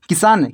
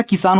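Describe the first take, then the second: First: "किसान" with the first vowel stretched to a long ee; wrong pronunciation. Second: "किसान" with a short first i; correct pronunciation. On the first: Teacher showing students the misreading to avoid, wrong pronunciation. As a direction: say "किसान" wrongly as kee-saan. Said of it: "नहीं होता". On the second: Teacher giving students the real word, correct pronunciation. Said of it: "होता है". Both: Shown as a demonstration.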